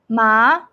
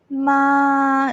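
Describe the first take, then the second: First: The pitch rises from lower to higher. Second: The pitch stays level and steady. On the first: "the second tone going up" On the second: "this one is a flat"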